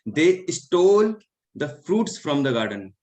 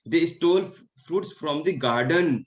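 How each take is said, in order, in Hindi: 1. "stole" पर मुख्य stress है। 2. "garden" पर मुख्य स्ट्रेस है। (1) "यहाँ पे स्टोल है" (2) "तो उन्होंने गार्डन से फ्रूट्स को चुराया है"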